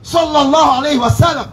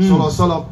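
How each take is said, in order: First: Every word of the phrase is pronounced clearly. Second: The phrase is clipped and slurred together. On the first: The speaker calls it right. "Faut bien prononcer" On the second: The speaker calls it wrong. "Regarde comment l'ignorant il prononce"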